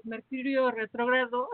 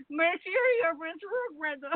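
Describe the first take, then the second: First: Said in the usual way. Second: Slurred, slow, higher like tipsy; drunk-sounding. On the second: Pretend. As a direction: garble it as if drunk. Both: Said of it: "Parece que estoy borracha".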